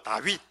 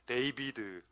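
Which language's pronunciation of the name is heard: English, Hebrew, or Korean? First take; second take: Korean; English. First: The name is said the Korean way, 'Dawit'. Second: The name is said the English way, 'Deibideu'. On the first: "발음이 한국 발음이" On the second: "영어 발음은 더 촌스러워"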